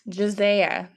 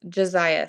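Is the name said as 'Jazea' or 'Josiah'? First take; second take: Jazea; Josiah. First: The name is said as 'Jazea'. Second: The name is said as 'Josiah'. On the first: The speaker calls it wrong. "Did I say it right?" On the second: The speaker calls it right. "that makes more sense"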